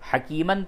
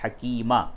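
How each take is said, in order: First: The word ends with an n sound. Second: The word ends with a long a vowel. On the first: The word is read without stopping on it. "हकीमन था" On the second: The reader stops on the word. "वक्फ की हालत में हकीमा हो जाएगा"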